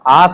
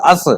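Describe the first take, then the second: First: The vowel is long, like 'aas'. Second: The vowel is short, like 'us'. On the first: The speaker calls it wrong. "Pronounce इसका आस नहीं" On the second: The speaker calls it right.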